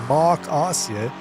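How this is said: The name is said with a German pronunciation. The speaker calls it wrong.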